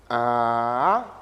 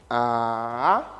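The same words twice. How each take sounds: No difference in how they are said.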